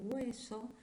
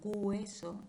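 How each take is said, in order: First: The word begins with a plain vowel glide. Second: The word begins with a reinforced g-like sound. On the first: The speaker calls it right. "en lugar de" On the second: The speaker calls it wrong. "pronuncian diptongos en posición inicial haciéndole un refuerzo"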